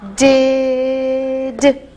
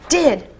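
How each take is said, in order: First: The word is stretched out slowly, sound by sound. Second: The word is said quickly as one unit.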